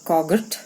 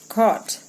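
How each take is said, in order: First: A hard g sound is heard mid-word. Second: No g sound is heard mid-word. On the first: The speaker calls it wrong. "It's not coggot" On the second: The speaker calls it right. "It's caught"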